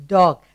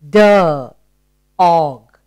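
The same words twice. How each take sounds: First: Said in the usual way. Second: "D. Og" split into "duh", pause, "og"; sounding out. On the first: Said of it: "One syllable word". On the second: Shown as a demonstration. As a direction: break dog into "D" sound and "Og" ending. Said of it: "What is the sound?".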